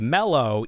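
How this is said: The first vowel sounds like 'eh' in 'bed'. This is the usual American way. "in America we say mellow even though there's an A"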